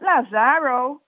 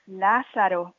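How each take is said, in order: First: The name is said with an English pronunciation. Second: The name is said with a Spanish pronunciation. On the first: The speaker calls it wrong. "Not Lazaro" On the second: The speaker calls it right. "Lázaro also in Spanish. Notice the accent"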